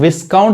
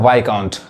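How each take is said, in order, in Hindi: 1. k से पहले s की आवाज़ आती है। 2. k से पहले s की आवाज़ नहीं आती। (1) "गलत हो जाएगा" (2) "एस क्या है? साइलेंट है"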